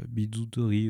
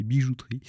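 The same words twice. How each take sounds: First: Bijouterie said as bidouterie, j softened to d, unsure; fumbled first try. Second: Bijouterie said cleanly as bi-jou-trie with a proper j; corrected word. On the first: Presenter groping for the French word, hesitant mispronunciation. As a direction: stumble over bijouterie with a d sound. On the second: Presenter correcting a word for the audience, clear retry. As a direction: land the corrected bijouterie firmly. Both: Real, not acted. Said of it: "ça veut pas comment se dire".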